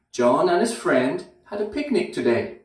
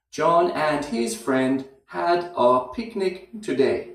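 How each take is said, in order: First: Said in the usual way. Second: Slowly, with a pause after friend and a weak had a; slow practice take. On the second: Shown as a demonstration. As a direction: spell out the rhythm for learners to copy. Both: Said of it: "after friend, there's a little pause".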